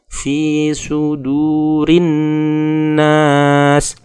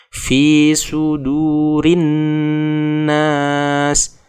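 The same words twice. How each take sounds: No difference in how they are said.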